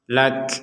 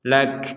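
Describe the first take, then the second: First: The final k is released with audible breath. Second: The same.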